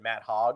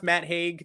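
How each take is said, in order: First: The surname has a short 'o' vowel. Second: The surname has a long 'ay' vowel. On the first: This is a joke pronunciation. The speaker calls it wrong. "I'm going to pronounce it Matt Hogg. It's funnier that way" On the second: This is the name's real pronunciation. The speaker calls it right. "I'm sure it's pronounced Matt Haig"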